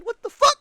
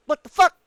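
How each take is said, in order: First: Much higher, incredulous squeal on fuck; high outraged shriek; shrieking disbelief. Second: Raised, rising incredulous fuck; rising, disbelieving curse at the developer; louder exasperated curse; exasperated what the fuck. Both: Real, not acted. Frustrated gamer yells at developer.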